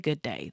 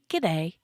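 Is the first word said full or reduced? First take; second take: full; reduced. First: Both words are said fully and separately. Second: The first word shrinks into one short g sound. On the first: The speaker calls it wrong. "they don't say good day" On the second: The speaker calls it right. "They say g'day"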